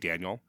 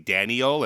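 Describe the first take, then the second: First: The name is said with two syllables. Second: The name is said with three syllables. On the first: "Daniel as two syllables" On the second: "say Daniel as three syllables"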